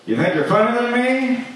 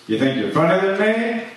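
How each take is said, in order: First: Much higher mock taunt; a hammed-up high-pitched challenge; shrill-pitched repeat. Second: Fast, higher mock taunt; taunting rival comic, half in jest; mock challenge. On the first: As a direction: push the same taunt way up in pitch. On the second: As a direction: hurl the challenge at the crowd. Mock heckler challenge, climbing.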